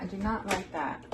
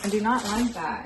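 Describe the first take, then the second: First: Much softer muttered repeat; muttered under breath. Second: Said in the usual way. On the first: Real, not acted. Grumbling to herself about the spill, softly. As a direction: say it again to yourself, hushed.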